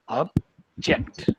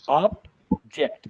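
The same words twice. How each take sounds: First: The stress is on the second syllable. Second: The stress is on the first syllable. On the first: It is used as a verb. "using it as verb to object, then the, the stress goes on the second one" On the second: It is used as a noun. "using object object as a noun, then it is object. ... first one will get stressed"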